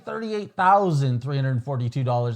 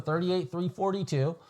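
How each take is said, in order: First: The price is said slowly and heavily, sounding big. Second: The price is said quickly and lightly, offhand. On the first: The price is a large amount. The speaker calls it wrong. "I don't say ... That sounds like a lot" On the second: The price is nothing remarkable. The speaker calls it right. "I just go"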